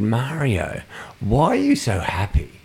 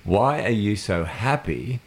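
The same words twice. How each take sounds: First: Bright curiosity, raised pitch at the start; puzzled question, lightly put; unwitting insult. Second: Slow, drawn-out "Why are you so happy"; pointed insult. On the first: Retold or imitated. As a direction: ask it innocently, falling at the end. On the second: Shown as a demonstration. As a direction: stretch "Why" and let "happy" hang, rising. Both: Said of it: "so here's the insult".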